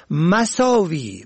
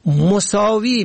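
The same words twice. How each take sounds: First: مساوی said "masaawi"; fatha on first syllable. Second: مساوی said "mosaawi"; damma on first syllable. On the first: Presenter teaching the word for evil, مساوی as "masaawi". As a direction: open مساوی with short a. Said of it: "به فتح اول". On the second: Presenter teaching the word for equal, مساوی as "mosaawi". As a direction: open مساوی with short o. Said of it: "به ضم اول". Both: Shown as a demonstration.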